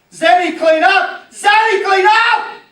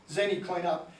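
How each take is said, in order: First: Much higher, loud shout up the stairs; shouting parent, slow and much louder; yelling parent. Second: Said in the usual way. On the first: Retold or imitated. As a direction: yell at the kid to tidy her room.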